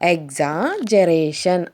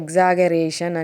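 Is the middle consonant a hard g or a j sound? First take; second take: j sound; hard g. First: The middle consonant is a soft j sound. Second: The middle consonant is a hard g sound. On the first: The speaker calls it right. "అనేది correct correct pronunciation" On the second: The speaker calls it wrong. "జీజీ ఉంది కాబట్టి దాన్ని గే అని పలుకుతున్నారు"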